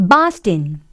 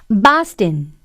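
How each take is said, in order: No difference in how they are said.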